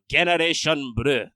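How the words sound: It is said with a Japanese-style pronunciation. "in Japanese, they pr- pronounce it"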